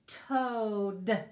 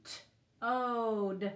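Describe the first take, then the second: First: Said in the usual way. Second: T-ode split into slow separate sounds; segmented word. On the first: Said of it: "There's our D". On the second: Shown as a demonstration. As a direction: break T-ode apart sound by sound. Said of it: "I think it's in the back room".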